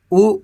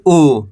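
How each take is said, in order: First: ऊ said short; don't draw out the ऊ; quick, brief ऊ; short vowel. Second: ऊ drawn out, falling; long, held ऊ; long vowel. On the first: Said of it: "कम खींच के पढ़ेंगे". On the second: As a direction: stretch the ऊ. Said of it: "खींच के पढ़ेंगे". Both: Shown as a demonstration.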